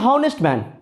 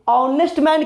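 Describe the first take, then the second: First: The word begins with an audible h sound. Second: The word begins with a vowel, no h sound. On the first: The speaker calls it wrong. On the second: The speaker calls it right.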